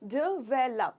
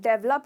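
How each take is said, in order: First: The word is said with three syllables. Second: The word is said with two syllables. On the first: The speaker calls it right. "इसका correct pronunciation है डेवलप, यानी कि तीन हिस्से हैं इस word में" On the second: The speaker calls it wrong. "अगर आप डेवलप कहते हो तो प्लीज आज से वो प्रोनाउंसिएशन भूल जाओ, ये बिल्कुल गलत है"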